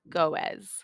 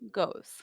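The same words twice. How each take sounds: First: The word is split into two syllables. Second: The word is said as one syllable. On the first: The speaker calls it wrong. "not goes" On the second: The speaker calls it right. "we still say it as one continuous sound"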